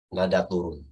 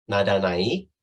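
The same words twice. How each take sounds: First: TURUN falling to a low close; low phrase, "turun" sinking downward. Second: NAIK rising at the end; low start, "naik" swung upward. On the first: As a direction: drop the pitch on "turun". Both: Shown as a demonstration.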